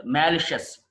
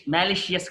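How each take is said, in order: First: మాలిషియస్ ending in "shus"; correct pronunciation. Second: మాలిషియస్ ending in "shi-us"; wrong pronunciation. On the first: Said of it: "మాలిషియస్ కాదు". (మాలిషియస్ "మా-లి-షస్" అని) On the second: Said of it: "కాదు". (మాలిషియస్ "షి-యస్" అని తప్పుగా) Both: Shown as a demonstration.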